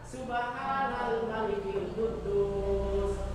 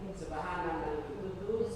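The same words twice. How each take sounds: First: The phrase is said at a louder volume. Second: The phrase is said at a softer volume.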